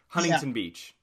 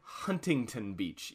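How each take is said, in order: First: The T in the middle is dropped. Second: The T in the middle is pronounced. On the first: This is how locals say it. "here in California, it's" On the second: This is how outsiders say it. "Anyone outside of California"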